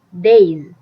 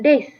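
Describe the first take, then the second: First: The final sound is a buzzing z. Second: The final sound is a hissing s. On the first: The speaker calls it right. "tapi days" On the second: The speaker calls it wrong. "bukan days ya"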